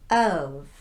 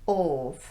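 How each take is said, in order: First: The vowel is an unrounded uh. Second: The vowel is a rounded vowel. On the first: The speaker calls it right. "the uh sound, as in cup. No lip rounding" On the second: The speaker calls it wrong.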